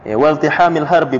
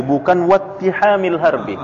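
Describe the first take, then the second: First: Wal tihamil harbi with the l sounded; plain. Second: Wat tihamil harbi, l merged into a doubled t; assimilated reading. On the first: Ustaz reading the text to students, wal tihamil with clear l. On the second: Ustaz showing students the assimilated wat tihamil. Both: Shown as a demonstration.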